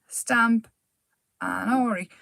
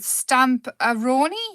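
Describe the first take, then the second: First: The name is split as 'stamp and Ori'. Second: The name runs together as one word ending 'roni'. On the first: The speaker calls it right. "It makes sense" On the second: The speaker calls it wrong. "I keep saying it wrong"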